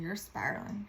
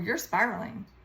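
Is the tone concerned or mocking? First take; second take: concerned; mocking. First: It is said in a gentle, concerned tone. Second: It is said in a dismissive, mocking tone. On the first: The listener cares about the person. "it's not like they said it in a way that was like" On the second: The listener is belittling the person. "They antagonized me"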